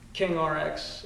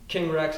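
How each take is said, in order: First: RX is spoken as two separate letters. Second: RX is spoken as the single word rex.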